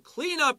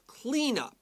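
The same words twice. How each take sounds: First: The stress is on the second word. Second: The stress is on the first word. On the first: It is the verb meaning to tidy something. "They're going to stress the second word because it's a verb" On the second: It is the noun meaning the tidying. "It's a noun, so we stress the first word"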